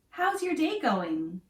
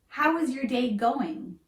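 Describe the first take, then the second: First: 'How is' is blended into one syllable. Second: 'How' and 'is' are said as separate words. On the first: The speaker calls it right. "We combine how and is to how's. So it sounds smoother and less robotic" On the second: The speaker calls it wrong. "notice we don't say"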